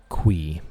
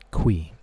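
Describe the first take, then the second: First: The name sounds like 'kwee'. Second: The same.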